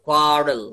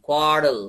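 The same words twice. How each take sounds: The two takes are said the same way.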